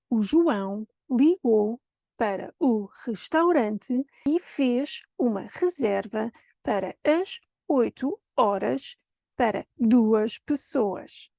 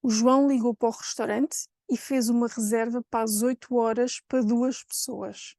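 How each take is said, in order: First: Slow "O João ligou", chunk by chunk with pauses; over-articulate each word of "para o restaurante", exaggerated tune; artificial textbook intonation. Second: "O João ligou" flowing in natural connected speech; natural Cascais accent, "para duas" reduced to "pa duas"; normal intonation. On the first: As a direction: Cinderella Portuguese, "para duas pessoas" fully enunciated and slow. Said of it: "this kind of artificial intonation". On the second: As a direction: run "para o restaurante" together, reduced to "pó restaurante". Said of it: "here goes normal intonation".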